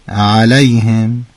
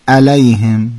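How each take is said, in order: First: The opening throat sound is clearly articulated. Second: The opening throat sound is left out. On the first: The speaker calls it right. "باید بگید علیهم" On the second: The speaker calls it wrong. "اما گفتید علیهم"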